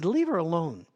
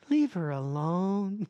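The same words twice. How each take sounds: First: It is said harshly, like a bark. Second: It is said softly and gently.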